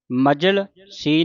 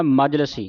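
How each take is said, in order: First: ਮਜਲ ਸੀ as two separate words; wrong split. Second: ਮਜਲਸੀ run together as one word; joined reading. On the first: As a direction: break after ਮਜਲ, then ਸੀ. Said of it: "ਮਜਲ ਸੀ ਨਹੀਂ ਪੜ੍ਹਨਾ". (ਮਜਲ ਸੀ, ਤੋੜ ਕੇ ਉਚਾਰਨ) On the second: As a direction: say ਮਜਲਸੀ without any break. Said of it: "ਇਸ ਤਰ੍ਹਾਂ ਪਾਠ ਉਚਾਰਨ ਕਰਨਾ ਹੈ". (ਮਜਲਸੀ, ਇਕੱਠਾ ਉਚਾਰਨ) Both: Shown as a demonstration.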